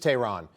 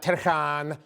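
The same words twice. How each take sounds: First: The name is said in a plain American way. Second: The name is said in a foreign-sounding way. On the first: The speaker calls it right. "it's just Tehran" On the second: The speaker calls it wrong. "It's not Tehran. Don't get cute"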